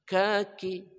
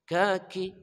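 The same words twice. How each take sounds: No difference in how they are said.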